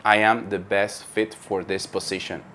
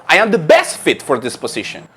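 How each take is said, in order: First: I am the best fit for this position, low and soft with no rise or fall; flat monotone. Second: I am the best fit for this position with best stressed and a clear fall; lively intonation. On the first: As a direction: say it flatly, no melody at all. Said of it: "Take a look at the following expression". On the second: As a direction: give it melody and punch best. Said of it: "Instead of". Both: Shown as a demonstration.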